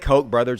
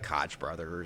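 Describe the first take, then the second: First: The name is said with its standard pronunciation. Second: The name is said with a joking mispronunciation. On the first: The speaker calls it right. "I can say Koch brothers" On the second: The speaker calls it wrong. "instead of"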